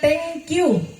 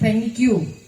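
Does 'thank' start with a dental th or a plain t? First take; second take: plain t; dental th. First: Thank starts with a plain t sound. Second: Thank starts with the tongue at the teeth. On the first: The speaker calls it wrong. "bukan thank you" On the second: The speaker calls it right. "tetapi thank you"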